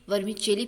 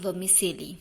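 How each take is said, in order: First: The middle consonant is a 'ch' sound. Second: The middle consonant is an 's' sound. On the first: The speaker calls it right. "Native इसे वर्मिचेली pronounce करते हैं" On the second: The speaker calls it wrong. "ना कि वर्मिसेली"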